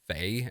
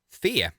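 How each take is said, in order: First: The name is said with an English pronunciation. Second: The name is said with a Swedish pronunciation. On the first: "if you're English, you're probably going to pronounce it" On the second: "actually, because it's Swedish"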